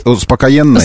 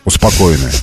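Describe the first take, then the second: First: "успокоенное" stressed on the Е, успокоЕнное; успокоЕнное, stress one syllable late; misplaced stress. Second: Said in the usual way. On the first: Shown as a demonstration. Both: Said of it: "как по-другому ударение поставишь?".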